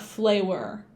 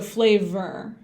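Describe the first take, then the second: First: The v is weak, sounding like flour. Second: The v is buzzed with vibrating lips. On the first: The speaker calls it wrong. "it sounds kind of like flour too if you say it that way" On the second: The speaker calls it right.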